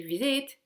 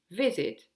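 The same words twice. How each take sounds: First: "visit" wrongly stressed on its second syllable, rising. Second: "visit" stressed on its first syllable, falling after. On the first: English teacher showing what was not said, "visit" stressed on its second syllable. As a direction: push the end of "visit" upward. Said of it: "j'ai pas dit visit". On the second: English teacher confirming the right form, "visit" stressed on its first syllable. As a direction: punch the start of "visit", drop the end. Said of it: "j'ai insisté sur la première syllabe". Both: Shown as a demonstration.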